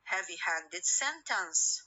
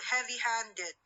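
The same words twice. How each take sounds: First: Slow heavy-handed sentence, main stress moved onto SENTENCE; primary stress on SENTENCE. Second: Heavy-handed said alone, its stress kept within the word; compound's own stress. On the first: Teacher shows the stress shifting, main stress on SENTENCE in heavy-handed sentence. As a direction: lean on SENTENCE after a lighter heavy-handed. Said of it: "sentence will carry the what? The primary stress". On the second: Teacher gives students the word heavy-handed alone, with its own stress. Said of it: "place of the stress will be changed". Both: Shown as a demonstration.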